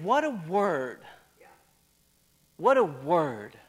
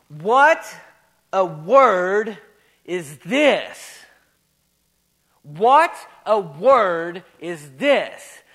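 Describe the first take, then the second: First: Dropped soft and lower, unhurried; hushed awe. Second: Very slow, word by word, pausing between; amazed exclamation. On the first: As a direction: let the amazement sink into a hush. Amazement repeated, dropped low after shouting. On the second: Preacher reads out the crowd's astonishment, slow amazed exclamation. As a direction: hold "What" on a rise, then land hard on "word". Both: Retold or imitated.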